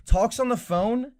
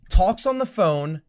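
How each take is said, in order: First: "on" drawn out, rising in disbelief; slow "talks on the phone", pitch climbing on "on"; stress on on with rise. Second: "on" drawn out, slow and level; stress on on. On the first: Repeating the complaint to a friend, rising on "on". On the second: Complaining to a friend about the movie, "on" held long. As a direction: lean on "on" as if in disbelief. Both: Real, not acted. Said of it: "and I'm not kidding".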